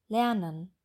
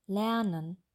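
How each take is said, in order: No difference in how they are said.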